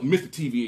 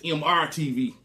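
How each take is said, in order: First: MR is read as the word mister. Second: MR is read as two separate letters. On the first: The speaker calls it wrong. "I thought it was Mister T V" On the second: The speaker calls it right. "But it's M R T V"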